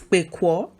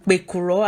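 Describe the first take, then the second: First: The word is shortened to two syllables. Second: The word is said fully with three syllables.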